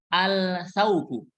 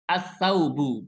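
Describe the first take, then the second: First: The L of the article is pronounced clearly. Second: The L merges into the following consonant. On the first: The speaker calls it wrong. "Jangan bacanya al-saubu. ... ini salah" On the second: The speaker calls it right. "Alif lamnya tidak terdengar"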